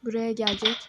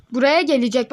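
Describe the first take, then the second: First: Said in the usual way. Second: Louder, "Buraya" pushed up in alarm; rising alarm. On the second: Real, not acted. Player warning viewers the enemy comes, alarmed.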